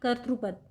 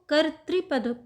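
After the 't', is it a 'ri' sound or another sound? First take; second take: another sound; ri sound. First: The syllable after 't' is not said as 'ri'. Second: The syllable after 't' is said as 'ri'. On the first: The speaker calls it wrong. "ना कि कर्तृपद" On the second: The speaker calls it right. "इसमें री की मात्रा है नीचे, तो इसको कर्तृपद पढ़ते हैं"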